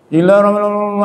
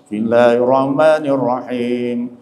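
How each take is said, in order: First: It is recited even more hurriedly and messily. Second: It is recited slowly and relaxed, slightly melodic. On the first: The speaker calls it wrong. "lebih parah lagi itu" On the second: The speaker calls it right. "jangan tergesa-gesa, santai. Kalau bisa berlagu sedikit lah"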